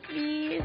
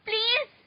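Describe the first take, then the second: First: It sounds soft and pleading. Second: It sounds harsh and angry. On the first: The speaker calls it right. "Yung nagmamakaawa" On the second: The speaker calls it wrong. "parang galit eh"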